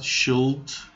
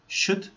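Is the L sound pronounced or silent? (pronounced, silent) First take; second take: pronounced; silent. First: The L sound is clearly pronounced. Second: The L sound is left silent. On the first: The speaker calls it wrong. "this is not should" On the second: The speaker calls it right. "This is should"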